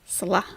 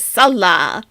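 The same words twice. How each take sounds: First: Said in the usual way. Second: Salah stressed loudly on the first syllable, SAL-lah; mocking SAL-lah for Salah, first syllable punched; misplaced stress. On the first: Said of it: "How do you pronounce it?". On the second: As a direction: imitate a learner hitting the SAL in Salah. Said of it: "emphasis is on the wrong syllable".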